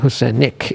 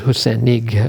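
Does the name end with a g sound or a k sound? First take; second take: k sound; g sound. First: The name ends with a k sound. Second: The name ends with a g sound. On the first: The speaker calls it wrong. "she's called it Husenik" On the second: The speaker calls it right. "better to pronounce it Husenig with a g sound"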